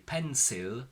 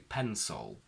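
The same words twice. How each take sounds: First: The ending has a clear L. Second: The ending has a dark 'ol' sound. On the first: The speaker calls it wrong. "We don't say" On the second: The speaker calls it right. "we say"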